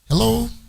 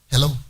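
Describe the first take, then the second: First: The greeting sounds warm and polite. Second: The greeting sounds curt and rude. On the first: The caller is greeted respectfully whoever they are. The speaker calls it right. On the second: The caller is treated as an unwelcome stranger. The speaker calls it wrong.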